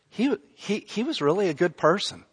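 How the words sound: It sounds doubtful, as if persuading oneself. The statement is not really believed. "it's like they're trying to convince themselves"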